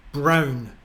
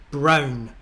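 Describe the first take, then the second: No difference in how they are said.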